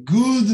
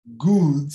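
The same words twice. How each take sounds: First: Good with a short relaxed oo; clipped English good; right short good. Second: Good said short and relaxed; clipped good vowel. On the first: Teacher contrasting the right vowel. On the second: Teacher modelling the correct sound. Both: Shown as a demonstration. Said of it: "Good não é good".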